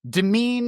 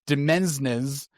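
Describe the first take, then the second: First: The word is said like 'domain' with silent s. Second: The word is said as 'demensnes' with s sounds. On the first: The speaker calls it right. "the S is silent... almost the same pronunciation... as the word domain" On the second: The speaker calls it wrong. "read it as Demensnes, uh, and that's also incorrect"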